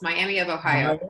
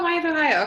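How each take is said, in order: First: It is said slowly, every syllable clear. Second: It is said fast, syllables blurred.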